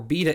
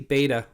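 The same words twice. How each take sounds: First: It is pronounced in a British way. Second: It is pronounced in a non-British way.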